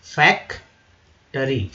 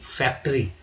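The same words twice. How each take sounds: First: फैक्टरी drawn out syllable by syllable; teacher stretches फैक्टरी slowly so each sound is heard; slow model word. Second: Said in the usual way. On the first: Shown as a demonstration. Teacher showing students how to say it, slowly. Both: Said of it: "ठीक है।".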